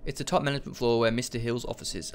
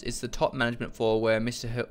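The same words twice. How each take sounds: First: Brisk, fluent second read; quicker reread. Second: Halting, slower read of the text; coming out slowly. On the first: Player rereading the floor directory after stumbling, quick fluent read. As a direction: read it through quickly in one go. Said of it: "I'll say it again". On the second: Player reading a floor directory aloud, slow halting read. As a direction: read it slowly and break off unfinished. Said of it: "They came out very slowly". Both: Real, not acted.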